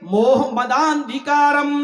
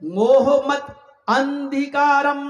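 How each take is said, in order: First: The words run together into one flowing unit. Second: Each word is said separately, with breaks. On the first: "अब इसको मिलाकर इसके उच्चारण को यूं पढ़ा जाएगा" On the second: "पहले हम आपको अलग अलग बता रहे हैं"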